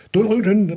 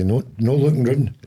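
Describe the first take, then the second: First: Much higher, louder mock order; urgent warning. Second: Raised, slightly louder "No looking round"; mild warning. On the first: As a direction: call out a sudden warning to a nosy guest. Repeats warning to imagined guest more sharply. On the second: Acted. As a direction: warn a guest off with "No, no looking round". Warns imagined guest not to look.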